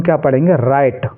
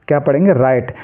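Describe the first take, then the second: Both takes have the same delivery.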